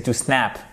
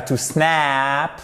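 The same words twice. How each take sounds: First: "to snap" with a short a, softer; correct short vowel. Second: "to snap" with the a exaggeratedly stretched, snaaap; wrong long vowel. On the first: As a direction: cut "snap" short, no stretching. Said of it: "c'est to snap". (« to snap » corrigé, a court) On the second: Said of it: "c'est pas to snap". (« to snap » mal prononcé, avec un a très allongé) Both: Shown as a demonstration.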